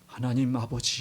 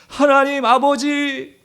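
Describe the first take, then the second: First: It is said calmly and quietly. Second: It is cried out loudly.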